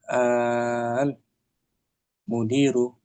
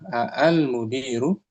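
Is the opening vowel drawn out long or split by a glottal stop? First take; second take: drawn out; split. First: The opening vowel is one long drawn-out sound. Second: The opening vowel is split by a glottal stop. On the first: "itu bacanya panjang" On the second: "Asalnya gini"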